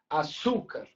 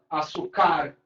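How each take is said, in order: First: The stress is on the second syllable. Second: The stress is on the third syllable. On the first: The speaker calls it right. "Será que a sílaba tônica é o Su? ... Tá mais parecido com o nosso som" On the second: The speaker calls it wrong. "Será que a última? ... Ficou nada a ver"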